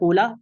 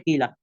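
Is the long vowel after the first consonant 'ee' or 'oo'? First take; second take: oo; ee. First: The first vowel is a long 'oo' sound. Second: The first vowel is a long 'ee' sound. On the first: "एक तरीका है कूला" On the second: "एक तरीका है कीला"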